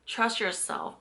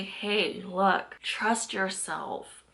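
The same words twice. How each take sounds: First: Said in the usual way. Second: Trust yourself, said slowly and softly; slow, soft encouragement. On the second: Shown as a demonstration. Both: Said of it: "And I'm here to say".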